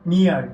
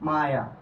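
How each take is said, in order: First: The word has an 'ee' vowel. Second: The word has an 'eye' vowel. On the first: The speaker calls it wrong. "এটা উচ্চারণ করি কি আমরা বলতো" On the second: The speaker calls it right. "কিন্তু এটার উচ্চারণ হবে কি"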